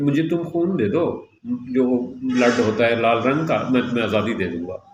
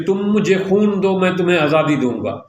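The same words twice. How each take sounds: First: Limp, unconvincing appeal, sinking lower; mock half-hearted plea that wanders off; without confidence. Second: Mildly impassioned, quoting a leader; rally people to give everything, with conviction; passionate rallying call. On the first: Shown as a demonstration. Speaker showing how the leader would lose people's trust, unconfident. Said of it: "وہ آدمی بغیر confidence کے یہ بات کہتا". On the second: Retold or imitated. Speaker imitating a man calling people to sacrifice for freedom, passionate. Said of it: "اس نے اتنے پرجوش انداز میں یہ بات کہی".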